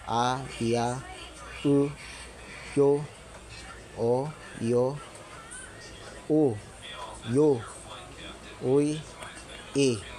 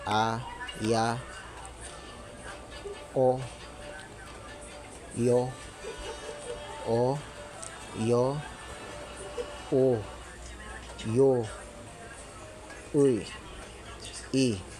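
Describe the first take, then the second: First: The syllables are read a little faster. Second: The syllables are read slowly. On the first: "bis-bilisan natin ng konti" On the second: "basahin naman natin ito ng dandahan"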